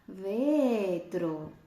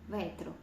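First: The E vowel is long and open. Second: The E vowel is short and closed. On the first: The speaker calls it wrong. "Я не протягую цю літерку Е в другому випадку. Я не кажу ветро" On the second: The speaker calls it right. "ця літерка Е, вона в мене тут коротка, закрита"

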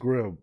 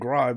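First: The vowel is a short 'i', rhyming with 'him'. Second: The vowel sounds like 'eye', rhyming with 'time'. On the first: The speaker calls it right. "it's Grimm, yeah" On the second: The speaker calls it wrong. "It ain't Grime"

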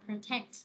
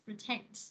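First: The stress is on the second syllable. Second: The stress is on the second syllable.

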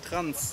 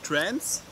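First: It is said like the German word Transen. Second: It is said like the English word trance. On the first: Cross-dressing people are meant. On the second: The music style trance is meant.

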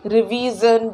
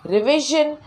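First: The middle consonant is a hard 'j' sound. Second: The middle consonant is a soft 'zh' sound. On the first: The speaker calls it wrong. "ये words में जो ज बोलते हैं ना वो गलत है" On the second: The speaker calls it right. "वो होना चाहिए ज साउंड"

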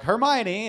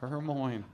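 First: The final E is pronounced. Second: The final E is silent. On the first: This is how the movie said it. The speaker calls it wrong. "they're like" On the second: This is how a reader guessed it from the book. The speaker calls it right. "Silent E"

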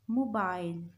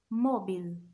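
First: It is said in a British accent. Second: It is said in an American accent.

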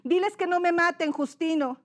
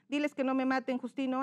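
First: It is read with lively, expressive intonation. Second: It is read flatly, without expressive intonation. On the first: The speaker calls it right. "Darle una buena entonación" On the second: The speaker calls it wrong. "¿Cuál sería lo incorrecto?"

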